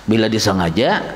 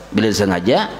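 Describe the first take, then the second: The two takes are said the same way.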